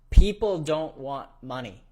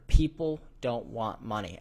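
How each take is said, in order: First: It is said louder. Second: It is said at normal volume.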